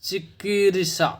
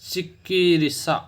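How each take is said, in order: Both takes have the same delivery.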